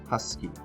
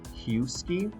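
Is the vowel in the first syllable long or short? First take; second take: short; long. First: The first vowel is a short uh sound. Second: The first vowel is a long U sound. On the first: The speaker calls it right. "it's that huh sound, that short U sound" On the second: The speaker calls it wrong. "do we say husky? No"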